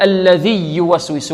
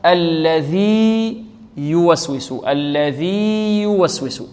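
First: الذي يوسوس with the two ya sounds merged; wrong merging. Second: الذي يوسوس with a long held ee before a clear y; slow, unmerged الذي يوسوس; correct separation. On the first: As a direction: shorten the long ee of الذي into a doubled y. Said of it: "لا نقول". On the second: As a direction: stretch الذي, then start يوسوس separately. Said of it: "وإنما". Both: Shown as a demonstration.

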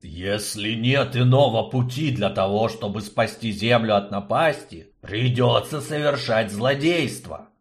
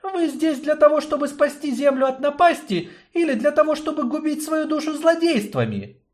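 First: Through gritted teeth. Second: High woman's voice, reproachful; young woman reproaching. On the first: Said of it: "процедил сквозь зубы губитель". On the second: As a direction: challenge them with a pointed question. Yarina questions the destroyer. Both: Acted.

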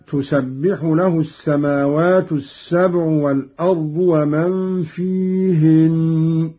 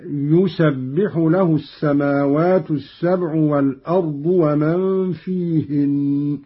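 First: Said in the usual way. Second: يسبح as "yusabbiḥu", starting on y; read with ya. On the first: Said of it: "قرأ قالون بالتذكير". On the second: Shown as a demonstration. Teacher demonstrating Qalun's masculine reading, يسبح begun with a y. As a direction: recite يسبح with ya in place of ta. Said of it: "أي بالياء".

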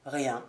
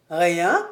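First: Low, soft, understated one-word answer; curt reply. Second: Rising, questioning disbelief; incredulous echo. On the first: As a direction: drop it quietly, closing the subject. Curt answer to eager question. (réponse brève, basse et discrète) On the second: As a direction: throw the word back as a question. (écho incrédule, ton montant) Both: A narrator's reading.

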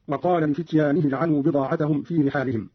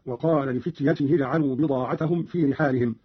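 First: Said in the usual way. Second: "لفتيته" as li-fityatihi; short ya, then ta. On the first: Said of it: "قرأ قالون بقصر الياء وتاء". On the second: Shown as a demonstration. Teacher showing Qalun's reading, "لفتيته" said li-fityatihi. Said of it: "بقصر الياء وتاء بعدها هكذا".

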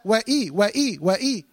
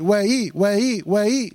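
First: وإي with a firm glottal catch before إي; clear hamza. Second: وإي glided together without a glottal catch; softened hamza. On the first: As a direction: break wa from إي with a clean hamza in وإي. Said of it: "لا". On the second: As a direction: slur the hamza in وإي as a wrong example. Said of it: "تسهيل". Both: Shown as a demonstration.

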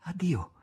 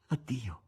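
First: A hushed, higher goodbye, falling at the end; first farewell, lightly softened; soft farewell. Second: The second addio much softer, fading away; hushed farewell. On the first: Margherita bidding Voland farewell, a soft hushed goodbye. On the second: Margherita's last goodbye to Voland, fading hushed. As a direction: let the goodbye die to a murmur. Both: A narrator's reading. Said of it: "esclamò sommessamente".

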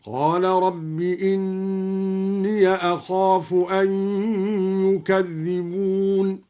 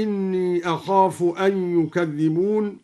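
First: Slow chant, إني as "inniya" before أخاف; opened ya. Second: Said in the usual way. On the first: Shown as a demonstration. Teacher shows the joined reading, slowly chanting إني as "inniya". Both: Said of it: "فتح الياء وصلا هكذا".

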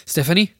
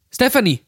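First: STEPHANIE as a higher, rising question; anxious questioning call. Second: STEPHANIE cried out much higher, falling at the end; urgent call. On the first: Jack calls "Stephanie?" into the silent phone, anxiously questioning. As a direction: ask "Stephanie?" with the pitch climbing at the end. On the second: Jack calls "Stephanie!" when no answer comes, urgent and falling. Repeats name louder, no answer. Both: Acted.

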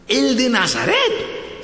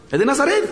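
First: Stretched, high-pitched disbelief; slow, high, incredulous double-check; astonished question. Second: Quick, high-pitched startled check; high rising question; surprised question. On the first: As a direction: draw it out in hammed-up amazement. Blind man realises, asks again. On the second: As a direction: ask it in sudden surprise, pitch jumping up. Blind man realises who is passing. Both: Acted.

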